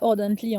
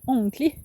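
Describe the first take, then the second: First: Every written letter is sounded out in full. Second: The middle consonants are dropped and it is shortened. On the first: The speaker calls it wrong. "Ça se dit pas Ordently" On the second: The speaker calls it right. "mais ça se dit Onkley"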